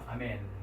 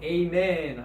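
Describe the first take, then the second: First: The first vowel is a plain 'ah' sound. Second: The first vowel is a gliding 'ay' sound. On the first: "아멘이 사실은 정확한 발음입니다" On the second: "우리가 보통 영어로는 에이멘 하죠"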